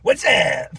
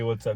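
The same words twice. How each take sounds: First: It is said loudly with exaggerated energy. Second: It is said in a calm, ordinary way. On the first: An over-the-top way to say the line. "it's so intense" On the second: A normal way to say the line. "he never says a line just regularly"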